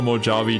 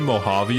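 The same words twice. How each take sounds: First: The middle consonant is a J sound. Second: The middle consonant is an H sound. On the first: The speaker calls it wrong. "I've been calling it the Mojave Desert" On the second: The speaker calls it right. "it's probably Mojave; The Spanish J, which is pronounced H"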